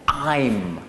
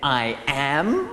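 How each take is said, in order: First: It is said as one contracted syllable. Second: It is said as two full separate words. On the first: "we're going to combine this and we're going to say I'm" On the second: "instead of saying I am"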